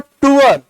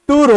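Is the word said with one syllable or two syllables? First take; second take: two syllables; one syllable. First: The word is drawn out into two syllables. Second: The word is said as one short syllable. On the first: The speaker calls it wrong. "मैंने इसको बोला टूअर" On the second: The speaker calls it right. "टूर होगा"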